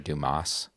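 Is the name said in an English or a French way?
English. The name is said with an English-sounding pronunciation. The speaker calls it wrong. "is the way most people say it"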